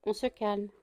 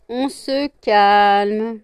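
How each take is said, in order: First: Quiet, hushed command; calm them with a soft voice; soft settling. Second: Loud, very drawn-out command; insistent settling. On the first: Owner settling both pets, soft hushed order. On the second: Owner settling both pets, long drawn-out loud order. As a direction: stretch the order right out. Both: Real, not acted.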